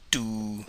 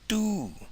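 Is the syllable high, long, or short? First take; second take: long; high. First: The vowel is long and level. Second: The vowel is said on a high pitch. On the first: To resemble or be similar. "you get the long vowel oo" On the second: To be overcooked or charred. "you raise the tone and you get the high tone oo"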